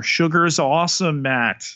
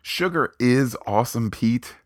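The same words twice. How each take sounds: First: Bright, fast and raised; excited. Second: High, loud echo of the slogan; excited. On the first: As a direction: sell it like a slogan. Cheerful catchphrase about sugar. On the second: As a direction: toss the slogan back with gusto. Echoes co-host's catchphrase back. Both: Acted.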